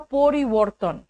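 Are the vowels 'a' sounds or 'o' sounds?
o. The vowels are said as 'o' sounds. It suits a Bengali audience. "वहां पे अ को ओ बोलते हैं"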